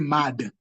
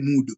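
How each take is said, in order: First: The vowel is an open 'ah' sound. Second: The vowel is a long 'oo' sound. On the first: The speaker calls it right. "You'll say mad" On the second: The speaker calls it wrong. "You'll not say mood"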